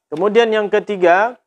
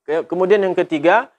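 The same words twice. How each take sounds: Both takes have the same delivery.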